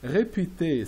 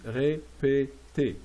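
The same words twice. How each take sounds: First: Said in the usual way. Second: "Répétez" very slowly, each syllable apart. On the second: Shown as a demonstration. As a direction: break "Répétez" into ré, pé, tez. Teacher breaks word into syllables.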